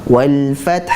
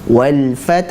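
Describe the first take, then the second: No difference in how they are said.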